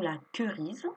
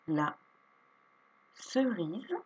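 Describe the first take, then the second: First: The word begins with a K sound. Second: The word begins with an S sound. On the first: The speaker calls it wrong. "et non la querise" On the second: The speaker calls it right. "le C ne fait plus Q, il fait SE"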